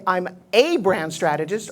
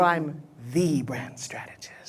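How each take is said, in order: First: Said in the usual way. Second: "the" leaned on, slow and soft; slow down and weigh "the"; stress on THE. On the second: Shown as a demonstration. Coach contrasting a brand and the brand, stressing "the". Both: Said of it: "What's the difference between".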